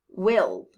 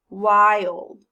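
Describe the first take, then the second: First: The vowel is a short i sound. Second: The vowel is a long i sound. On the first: The speaker calls it wrong. "Let's try the short sound first" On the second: The speaker calls it right. "So now let's try the long sound"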